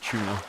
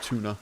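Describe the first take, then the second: First: It is said with a British pronunciation. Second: It is said with a non-British pronunciation. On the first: "British people say tuna" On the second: "rather than tuna"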